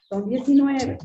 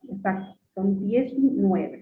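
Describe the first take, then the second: First: Said in the usual way. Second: Diecinueve stretched out slowly, word by word; slow emphatic repeat. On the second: Shown as a demonstration. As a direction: say son diecinueve slowly, confirming it.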